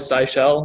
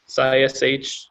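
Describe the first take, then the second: First: The name ends with the full word shell. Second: The name ends with a bare sh sound. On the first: "sh to me is shell, so I'm always sci shell" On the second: "Sci sh, I guess"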